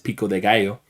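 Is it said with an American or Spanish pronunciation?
Spanish. It is said with a native Spanish pronunciation. "like how it would actually be pronounced"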